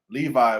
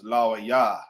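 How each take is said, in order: First: The name is said in its familiar English form. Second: The name is said in its ancient Hebrew form.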